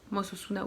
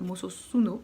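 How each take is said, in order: First: Mososuna ending in an open A; unsure reading, A ending. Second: Mososuno ending in an O; unsure reading, O ending. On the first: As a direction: say Mososuna with a final "ah". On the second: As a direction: say Mososuno with a final "oh". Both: Real, not acted. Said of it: "je n'arrive pas forcément à le lire".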